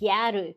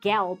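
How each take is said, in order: First: It is said as two Japanese-style syllables. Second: It is said as one English syllable. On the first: "but pronounced like uh like Japanese phonetically" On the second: "it's just the word gal"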